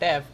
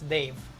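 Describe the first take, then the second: First: The name is said with the vowel of 'bed'. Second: The name is said with the vowel of 'day'. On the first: The speaker calls it wrong. "the pronunciation is not Dev" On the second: The speaker calls it right. "It's Dave"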